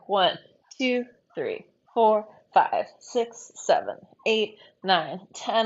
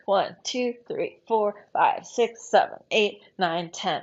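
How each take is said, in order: First: The counting is at a medium pace. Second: The counting is at a fast pace.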